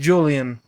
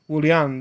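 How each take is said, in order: First: The name is pronounced the English way. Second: The name is pronounced the Spanish way. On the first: "And to you guys" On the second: "That's how we pronounce it in Spanish"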